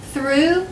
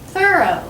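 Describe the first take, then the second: First: "Through" as one high syllable, rising on ooh; pronunciation drill. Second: "thorough" as two syllables, high then falling to O; pronunciation drill. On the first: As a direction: model "Through" like threw, for repeating. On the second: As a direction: model "thorough" as THUR-oh, for repeating. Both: Shown as a demonstration. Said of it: "Say them with me".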